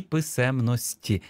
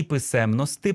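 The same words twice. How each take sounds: First: Писемності said with soft final -ti, drawn slowly; ending in soft І. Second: Писемності said as "pysemnosty", hard final -ty; ending in hard И. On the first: Teacher showing the second permitted variant, писемності with final ті. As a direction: end писемності on a softened ті. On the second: Teacher showing the first permitted variant, писемності with final ти. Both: Shown as a demonstration. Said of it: "варіативні закінчення і або и".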